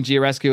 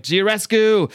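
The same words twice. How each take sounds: First: Said in the usual way. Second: Higher, louder mock scream; hammed-up yell at the vampire; screaming the name. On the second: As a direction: call the name out across the room. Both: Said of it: "Hellboy's just screaming".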